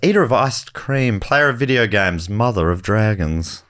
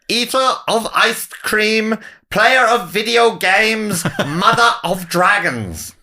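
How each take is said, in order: First: It is read in a plain everyday voice. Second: It is said in a grand royal announcer voice.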